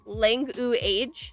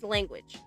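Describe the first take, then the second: First: The word is sounded out in separate parts. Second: The word is said in its usual smooth way. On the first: This is how the spelling suggests it should sound. The speaker calls it wrong. "should be sounded out like langu age" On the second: This is how the word is actually pronounced. The speaker calls it right. "but no, it's language"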